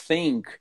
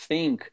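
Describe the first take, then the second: The two takes are said the same way.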